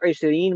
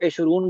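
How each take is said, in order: First: The word ends with an 'een' sound. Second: The word ends with an 'oon' sound. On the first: This is the form used in everyday speech. "आमतौर पे बोलते वक्त इशरीन" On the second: This is the form found in books. "ये आप किताबों में देखोगे इशरून"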